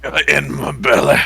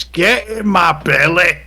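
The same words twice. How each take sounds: First: Owlbear voice. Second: Slow, loud, higher growling monster; owlbear voice. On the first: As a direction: lower gruff echo of the monster line. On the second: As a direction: bellow it like a hungry beast. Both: Acted. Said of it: "the first thing the owlbear says".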